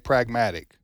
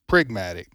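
First: The first vowel sounds like 'a' in 'cat'. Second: The first vowel sounds like 'i' in 'pig'. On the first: The speaker calls it right. "who can't say pragmatic" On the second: The speaker calls it wrong. "Says prigmatic"

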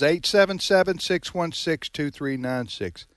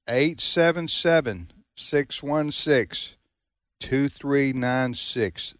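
First: The number is said at normal speed. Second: The number is said slowly.

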